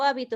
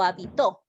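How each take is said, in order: First: The stress is on the first syllable. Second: The stress is on the last syllable. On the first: "es una palabra esdrújula" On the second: "la ubicación del acento hace que la palabra pueda cambiar de significado"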